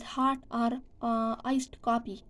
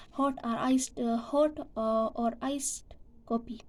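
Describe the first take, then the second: First: "hot or, uh, iced coffee" the British way; British vowels in "hot or, uh, iced coffee"; British pronunciation. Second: "hot or iced coffee" the American way; American vowels in "hot or iced coffee"; American pronunciation. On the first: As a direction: round the lips on "hot" and "coffee". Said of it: "British pronounce as". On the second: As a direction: relax the lips and drop the jaw on "hot" and "coffee". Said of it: "So American pronounce it as". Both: Shown as a demonstration.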